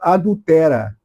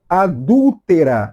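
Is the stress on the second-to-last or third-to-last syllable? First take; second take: second-to-last; third-to-last. First: The stress is on the second-to-last syllable. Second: The stress is on the third-to-last syllable. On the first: The speaker calls it wrong. "não adultera" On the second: The speaker calls it right. "Adúltera é uma palavra proparoxítona"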